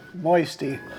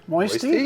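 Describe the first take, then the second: First: The voice falls at the end like a statement. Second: The voice rises at the end like a question.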